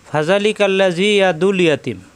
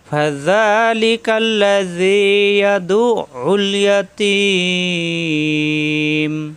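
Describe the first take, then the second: First: The throat 'ain sound is dropped entirely. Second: The throat 'ain sound is clearly pronounced. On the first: The speaker calls it wrong. "আমরা কিন্তু অনেকে এভাবে পড়ি ... একবারও আইন পড়া হচ্ছে না" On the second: The speaker calls it right. "দু মিলবে আইনের সাথে দু, পরের আইনে ফেস ও দু উল"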